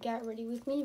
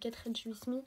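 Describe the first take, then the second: First: It is said with an English accent. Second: It is said with a French accent. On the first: The speaker calls it right. "vu que ça se prononce comme ça" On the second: The speaker calls it wrong. "pourquoi je dirais get ready with me"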